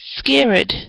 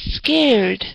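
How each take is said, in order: First: The word is said with two syllables. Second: The word is said with one syllable. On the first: The speaker calls it wrong. "I noticed that you said um" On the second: The speaker calls it right. "The correct pronunciation for the word is scared"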